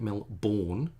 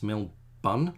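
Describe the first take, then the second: First: The second syllable sounds like 'born'. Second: The second syllable sounds like 'bun'. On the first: The speaker calls it wrong. "instead of pronouncing it Melbourne, like no one's born" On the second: The speaker calls it right. "it's Melbun, like a bun"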